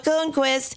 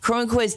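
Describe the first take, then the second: First: The name is said without its R sound. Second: The name is said with its R sound. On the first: The speaker calls it wrong. "It makes you a racist. You become a" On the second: The speaker calls it right. "don't drop the R"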